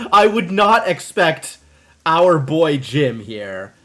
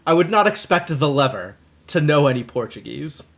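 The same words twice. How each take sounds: First: Mock solemn. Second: Said in the usual way. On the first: Teasing Jim about Portuguese, mock grave and slow. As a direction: drag it out like a stern pronouncement.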